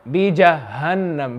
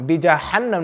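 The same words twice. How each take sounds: First: बीजहन्नम with a soft, light h. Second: बीजहन्नम said quicker with a harsh h; quick बीजहन्नम, h too heavy; hard H, mistaken. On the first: Teacher corrects a student, बीजहन्नम with soft h. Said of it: "ये हा soft होना चाहिए". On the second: Teacher shows the student's mistake, बीजहन्नम with hard h. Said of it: "नहीं". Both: Shown as a demonstration.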